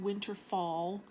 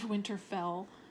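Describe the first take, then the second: First: The last syllable sounds like 'fall'. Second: The last syllable sounds like 'fell'. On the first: The speaker calls it wrong. "he would call it Winterfall" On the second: The speaker calls it right. "instead of Winterfell"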